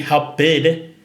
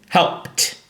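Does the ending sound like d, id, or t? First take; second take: id; t. First: The word ends in an extra id syllable. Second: The word ends in a voiceless t sound. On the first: The speaker calls it wrong. "it won't be help bid. It's not help bid" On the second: The speaker calls it right. "but it's helped"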